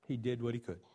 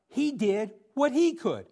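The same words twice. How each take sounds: First: The phrase sounds negative and dismissive. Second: The phrase sounds warm and celebratory. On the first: The effort was only small or limited. The speaker calls it wrong. "Now that sounds sort of negative, the way an inflection of my voice there" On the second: The effort deserves praise. The speaker calls it right. "What I want to celebrate Barnabas"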